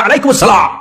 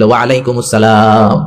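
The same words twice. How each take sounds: First: High, curt mock-angry greeting back; imitating a sharp-tongued woman's annoyed reply; harsh, irritated voice. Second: Low, slow, lilting greeting back; imitating a gentle woman's musical reply; honeyed, melodious voice. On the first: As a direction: return the salaam crossly, pitched high. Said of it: "কর্কশ কণ্ঠে, ঝাঁঝালো কণ্ঠে, রাগ মাখা কণ্ঠে". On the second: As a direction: return the salaam sweetly, drawing it out. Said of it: "জাদুমাখা কণ্ঠে, মধুমাখা কণ্ঠে, সুরেলা কণ্ঠে".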